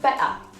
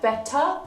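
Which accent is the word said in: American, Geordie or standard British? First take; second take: Geordie; standard British. First: It is said in a Geordie accent, ending in ah. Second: It is said in a standard British accent.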